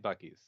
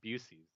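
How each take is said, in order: First: The middle consonant is a K sound. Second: The middle consonant is an S sound. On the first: The speaker calls it right. "But it's definitely Bucky's" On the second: The speaker calls it wrong. "Some some people call it Busey's"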